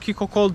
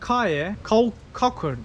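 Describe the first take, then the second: First: The name starts with 'kee' and ends in 'kol'. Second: The name starts with 'kay' and ends in 'kur'. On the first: This is how the locals say the name. "yerlerin söyleyişi o" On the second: This is how the speaker himself says the name. "Ben buna Kaye, Kakur diyorum"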